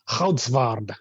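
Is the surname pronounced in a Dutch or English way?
Dutch. The surname is said with Dutch sounds. "depending on how Dutch you are, I guess the proper pronunciation is more like Goudsward"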